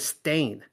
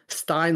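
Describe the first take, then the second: First: The vowel sounds like 'ay', rhyming with stain. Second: The vowel sounds like 'eye', rhyming with Frankenstein. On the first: "as in they stain their pants" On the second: "like Frankenstein"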